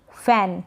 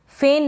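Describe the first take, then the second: First: फैन with short open "ae", as in "fan"; correct pronunciation. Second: फेन with closed "ay", like "fain"; wrong pronunciation. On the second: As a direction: say फेन with a long e vowel. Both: Shown as a demonstration. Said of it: "फेन नहीं फैन".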